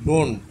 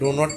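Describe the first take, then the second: First: The words are joined into one contracted syllable. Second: Two separate words are said, with no contraction. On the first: "short করতে যাই তাহলে ডো নট মিলে হয় ডোন্ট" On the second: "separate থাকে"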